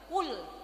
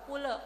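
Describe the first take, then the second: First: The l ends the word crisply, no vowel. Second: The l is followed by an extra vowel. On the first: The speaker calls it right. "lamnya harus dibaca jelas" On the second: The speaker calls it wrong. "bukan bukan kule"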